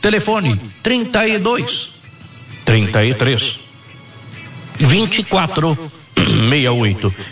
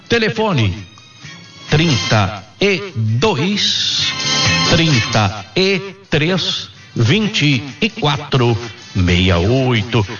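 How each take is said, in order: First: The number is read at normal speed. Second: The number is read slowly.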